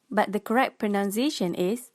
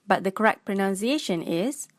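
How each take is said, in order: Both takes have the same delivery.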